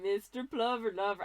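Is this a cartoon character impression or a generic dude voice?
dude voice. It is said in a generic laid-back dude voice. "I'm just trying to do like a dude voice"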